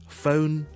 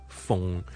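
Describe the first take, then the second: First: The vowel glides like the letter O. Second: The vowel stays short and steady like fung. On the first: The speaker calls it right. "it's phone" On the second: The speaker calls it wrong. "It's not 疯疯疯"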